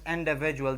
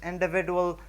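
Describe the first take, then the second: First: The D before the U sounds like J. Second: The D before the U sounds like plain D. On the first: The speaker calls it right. "but we call this individual" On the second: The speaker calls it wrong. "We don't call this individual"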